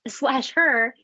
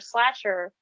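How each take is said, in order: First: The title is said slowly as two separate words. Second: The title is run together quickly as one word. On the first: The speaker calls it right. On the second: The speaker calls it wrong.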